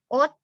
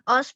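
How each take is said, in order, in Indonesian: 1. Kata ini berakhir dengan bunyi T. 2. Kata ini berakhir dengan bunyi S. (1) "tapi ut" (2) "Bukan os"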